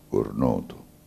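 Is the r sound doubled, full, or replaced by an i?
full. The r before the n is pronounced fully. This is how it is said in Girgenti. "C'è tanto di R, cornuto, girgentano"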